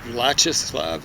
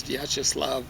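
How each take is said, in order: First: Vyacheslav said as "VLA-cheh-slav", flat English a sounds; first-try pronunciation. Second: Vyacheslav said as "vya-cheh-SLAHV", a "vya" start and a broad final "ah"; corrected pronunciation. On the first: Naming Soviet leaders, first attempt at the name, anglicized pronunciation. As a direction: stumble through Vyacheslav with English vowels, first syllable "vla". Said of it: "I said Vyacheslav". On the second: Correcting himself on the name, the more Russian pronunciation. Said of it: "but I think it's Vyacheslav". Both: Shown as a demonstration.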